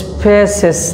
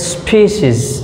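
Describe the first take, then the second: First: The first vowel is a short 'e' sound. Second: The first vowel is a long 'ee' sound. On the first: The speaker calls it wrong. "এখানে কিন্তু স্পেসেস না" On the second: The speaker calls it right. "এটাকে বলা হয় long ই"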